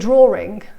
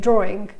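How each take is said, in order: First: An R sound is inserted mid-word. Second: No R sound is inserted mid-word. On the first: "people say drawing" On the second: "rather than say drawing"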